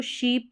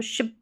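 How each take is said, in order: First: शीप with a long ee; long vowel. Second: शिप with a short i; short vowel. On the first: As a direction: hold the ee in शीप. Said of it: "शीप बड़ी ई है". (लंबी ई वाला शीप) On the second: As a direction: keep the i quick in शिप. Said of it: "छोटी ई है". (छोटी इ वाला शिप) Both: Shown as a demonstration.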